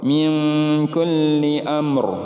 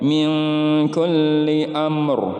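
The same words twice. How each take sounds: First: The final R sound is pronounced. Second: The same.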